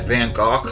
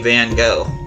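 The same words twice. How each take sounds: First: The name is said an unusual, non-anglicized way. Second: The name is said the common anglicized way. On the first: The speaker calls it right. "it's supposed to be like Van Gogh or something like that" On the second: The speaker calls it wrong. "that's not how you're supposed to pronounce his name"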